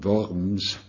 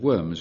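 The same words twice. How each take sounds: First: The name is pronounced the German way. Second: The name is pronounced the English way. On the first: "if you want the German" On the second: "but I'm using English pronunciations"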